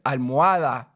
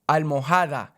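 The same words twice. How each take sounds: First: The h sound in the middle is silent. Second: The h sound in the middle is pronounced. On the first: The speaker calls it right. "the H is silent" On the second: The speaker calls it wrong. "I would never say the H in Spanish again"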